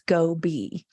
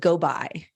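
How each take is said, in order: First: The second syllable sounds like 'be'. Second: The second syllable sounds like 'by'. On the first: The speaker calls it right. "children are expected to understand how to pronounce go be" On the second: The speaker calls it wrong. "They thought it was go by because of the I on the end"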